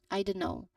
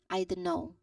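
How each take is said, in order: First: It is quick, with the T sound dropped. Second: It is quick, with the T sound dropped.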